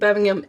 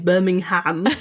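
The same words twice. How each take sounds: First: The name is pronounced the British way. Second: The name is pronounced the American way. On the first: The city in England is meant. "I was thinking Birmingham, England" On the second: The city in Alabama is meant. "if I was doing Alabama to say Birmingham"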